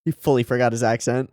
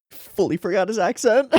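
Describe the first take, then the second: First: Said in the usual way. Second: Amused, laughing as you say it. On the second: Real, not acted. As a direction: repeat it through laughter. Says it twice, laughing.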